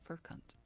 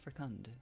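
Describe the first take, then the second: First: The word ends with a T-like sound. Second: The word ends with a clear D sound.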